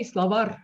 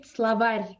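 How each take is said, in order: First: Словарь with a plain hard r at the end; hard final r. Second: Словарь with the last r softened, palatalized; soft final r. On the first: Teacher showing students the wrong словарь, hard final r. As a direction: say словарь ending on a hard, unsoftened r. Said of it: "we don't say словарь". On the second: Teacher showing students how we say словарь, soft final r. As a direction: end словарь on a soft r, tongue raised. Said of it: "So it's soft". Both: Shown as a demonstration.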